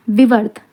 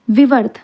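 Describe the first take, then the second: No difference in how they are said.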